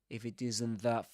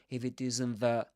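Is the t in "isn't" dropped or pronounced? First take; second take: dropped; dropped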